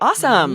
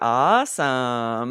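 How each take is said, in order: First: It is lively and sounds excited. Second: It is drawn out and sounds sarcastic. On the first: The speaker is genuinely happy for them. "make sure your tone is excited" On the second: The speaker is not really impressed. "super sarcastic. Drawing it out, adding that sarcasm"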